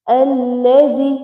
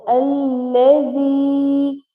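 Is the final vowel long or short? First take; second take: short; long. First: The final vowel is cut short. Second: The final vowel is held long. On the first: The speaker calls it wrong. "some people read it like Allazi" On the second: The speaker calls it right. "we have to make Ya Sakin long for one second"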